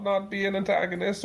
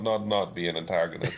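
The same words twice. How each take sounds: First: "not" hit much higher than the rest; stress on not. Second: Said in the usual way. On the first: Shown as a demonstration. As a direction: lean hard on "not", the rest light.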